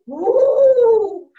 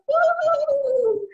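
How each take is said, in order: First: Big, loud ghostly woo; Papa Ghost wail. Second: High-pitched ghostly woo; Mama Ghost wail. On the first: Papa Ghost haunts the house, loud wail. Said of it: "Papa Ghost would go". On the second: Mama Ghost haunts the house, high wail. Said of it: "Mama Ghost would go". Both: Retold or imitated.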